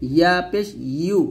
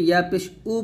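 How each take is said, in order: First: The final syllable starts with a y glide. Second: The final syllable starts with a bare u vowel. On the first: The speaker calls it right. "জিহ্বার মধ্যখান উপর তালুর সঙ্গে লাগিয়ে উচ্চারণ করবেন" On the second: The speaker calls it wrong. "হামজা পেশ উর মতো অনেক উচ্চারণ করি, তো এটা করা যাবে না"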